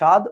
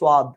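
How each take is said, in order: First: No w sound follows the first consonant. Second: A w sound follows the first consonant. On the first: This is how Bangladeshi speakers say it. "আমরা বলি স্বাদ" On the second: This is how Indian speakers say it. "ওরা বলে স্বাদ"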